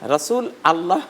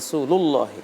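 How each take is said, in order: First: The two words are said separately, unlinked. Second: The words are joined with an 'u' linking sound. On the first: The speaker calls it wrong. "এখানে রাসূল আল্লাহ বলার কোনো সুযোগ নেই" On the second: The speaker calls it right. "লাম গিয়ে লামকে ধরবে পেশ সহ"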